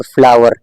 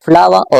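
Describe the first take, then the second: First: फ्लावर with a clearly sounded final R; American strong R. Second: फ्लावर ending in an open "ah"; British silent R. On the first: Teacher contrasting American with British, strong R. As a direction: pronounce the R ending फ्लावर. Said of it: "आर को strongly pronounce करना है". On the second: Teacher contrasting British with American, silent R. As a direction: drop the final R of फ्लावर. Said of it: "British accent में बात कर रहे हैं या American". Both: Shown as a demonstration.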